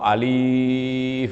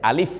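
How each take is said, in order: First: The vowel is drawn out long. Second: The vowel is short, not drawn out. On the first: The speaker calls it wrong. "Nggak usah alif atau alif. Wah, ini bacaan dibuat-buat sendiri" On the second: The speaker calls it right. "alifnya pendek saja, alif gitu aja"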